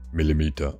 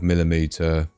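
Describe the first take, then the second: First: It is said in a deep, accented robot-like voice. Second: It is said in the speaker's ordinary voice.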